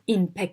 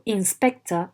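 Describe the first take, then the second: First: One consonant sound is left out. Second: All the consonants are fully pronounced. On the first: The speaker calls it wrong. "avoid adding or omitting elements" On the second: The speaker calls it right. "inspector and not"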